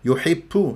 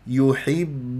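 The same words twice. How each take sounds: First: The final b has a breathy, p-like release. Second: The final b is firm and voiced, without breath. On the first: The speaker calls it wrong. "يجعلها كأنها بي آه الإنجليزي" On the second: The speaker calls it right. "الباء حرف قوي شديد مجهور"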